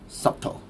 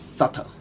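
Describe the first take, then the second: First: The B sound is pronounced in the middle. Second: The B sound is silent in the middle. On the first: The speaker calls it wrong. "the pronunciation of this word is not subtle" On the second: The speaker calls it right. "it is subtle"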